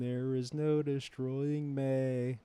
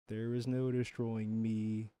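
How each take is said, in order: First: The last word is pronounced like 'may'. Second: The last word is pronounced like 'me'. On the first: The speaker calls it wrong. "he doesn't say me, it's may" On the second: The speaker calls it right. "No, it's me"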